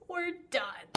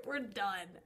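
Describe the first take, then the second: First: "We're done." higher and louder, final; emphatic. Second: Said in the usual way. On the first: Real, not acted. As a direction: slam the door with "We're done.".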